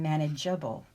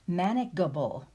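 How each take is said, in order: First: The g sounds soft, as in gem. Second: The g sounds hard, as in go. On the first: The speaker calls it right. "That's better" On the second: The speaker calls it wrong. "neither of those spellings is going to give us the original sound"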